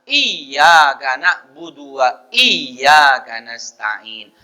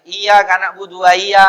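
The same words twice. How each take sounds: First: Slow "Iya" with the y doubled and held; drawn-out "iya karena stain", tasdid restored; corrected repeat. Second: "iya" with a single light y; quick "iya karena budu" without the doubled y; tasdid dropped. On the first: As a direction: recite again with a firm double y in "iya". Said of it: "harus diulang". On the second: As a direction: pass over the y of "iya" undoubled. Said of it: "baca tidak tasdid". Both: Shown as a demonstration.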